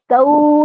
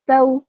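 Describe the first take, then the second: First: The final vowel is drawn out long. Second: The final vowel is short and soft. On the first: The speaker calls it wrong. "तऊ नहीं करना" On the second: The speaker calls it right. "बस इतना पढ़ना है, खींचना नहीं है इसको"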